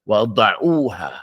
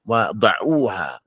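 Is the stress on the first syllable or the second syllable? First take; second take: second; second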